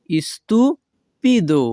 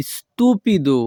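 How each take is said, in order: First: Stupido split as "istu... pido", raised pitch; slow stupido, pause after "istu"; syllable by syllable. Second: Said in the usual way. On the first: Shown as a demonstration. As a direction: break stupido in two for learners. Teacher repeats word split for learners.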